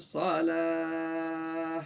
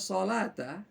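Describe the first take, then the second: First: The word ends with a long held 'ah'. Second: The word ends with a full 'ta' syllable. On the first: The reader stops at this word. "dia berubah menjadi salah, empat ketukan" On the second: The reading continues without stopping. "yang tadinya salata"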